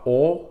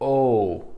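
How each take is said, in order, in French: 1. La voyelle est courte. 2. La voyelle est longue. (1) "c'est pas O" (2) "c'est O"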